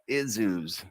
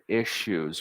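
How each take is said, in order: First: The middle consonant is a z sound. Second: The middle consonant is a sh sound. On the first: "Try to say it with a Z sounding S" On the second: "the double S usually has a sh sound"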